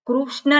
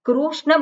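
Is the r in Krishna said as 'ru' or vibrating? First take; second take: vibrating; ru. First: The r is a short vibrating vowel sound. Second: The r is said as a full 'ru' syllable. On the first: The speaker calls it right. "વાઇબ્રેટિંગ ર" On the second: The speaker calls it wrong. "ના થાય કૃષ્ણ બોલીએ તેમાં રૂ બોલ્યો છે"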